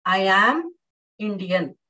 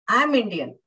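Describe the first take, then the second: First: Strong form "am" set apart; stress on AM. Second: "I am" contracted to "I'm", run into Indian; reduced "am", all one quick phrase; weak form AM. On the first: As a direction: hit the word "am" hard. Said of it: "I am stressing on the word am". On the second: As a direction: glide over "am" without stressing it. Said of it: "I am Indian is the weak form". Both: Shown as a demonstration.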